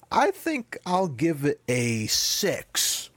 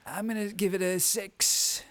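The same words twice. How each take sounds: First: Slow, drawn-out Trump-style voice; Trump impression. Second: Higher, slow put-on Trump voice; Trump impression. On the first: Podcast host rating a Bond film, mock Trump voice. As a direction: lightly do Trump giving a score. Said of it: "You sounded very Trumpy". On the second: Co-host mocking his partner's rating, hammed-up Trump voice. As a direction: quote him back doing Trump. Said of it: "You sounded very Trumpy when you said".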